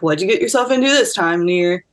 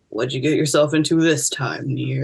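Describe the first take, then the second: First: It is said in a higher, upbeat voice. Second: It is said in a lower, flatter voice. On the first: This is how the character sounds in her head. "he has like a, a higher pitched voice, and he's kind of more like upbeat" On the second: This is how the other person read the character. "you're just like"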